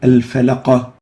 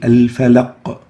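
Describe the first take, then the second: First: A short vowel follows the final q. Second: The word ends on a bare q. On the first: The speaker calls it wrong. "we don't say al-falaqa" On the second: The speaker calls it right. "We say al-falaq"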